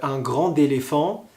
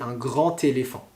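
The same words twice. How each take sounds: First: The words are linked with a D sound. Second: The words are linked with a T sound. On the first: The speaker calls it wrong. "C'est très dangereux si vous dites" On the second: The speaker calls it right. "On va le lire T"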